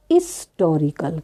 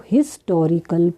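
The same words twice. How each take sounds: First: हिस्टोरिकल said as "istorical"; teacher's model हिस्टोरिकल opening on the vowel; silent h. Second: हिस्टोरिकल with its opening h pronounced; careful हिस्टोरिकल starting on "his"; h sounded. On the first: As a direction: drop the h of हिस्टोरिकल, start on "is". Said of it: "यहाँ silent है एच". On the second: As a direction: read हिस्टोरिकल syllable by syllable, h audible. Word read before silent-h explanation. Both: Shown as a demonstration.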